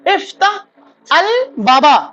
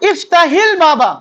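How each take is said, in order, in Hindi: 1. कोई जोड़ने वाला स्वर दोनों शब्दों को नहीं जोड़ता। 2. एक जोड़ने वाला 'i' स्वर दोनों शब्दों को जोड़ता है।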